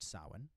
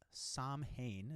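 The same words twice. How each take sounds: First: It is said differently from its spelling. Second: It is said the way it is spelled. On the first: The speaker calls it right. "but it's pronounced Samhain" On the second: The speaker calls it wrong. "is what it looks like"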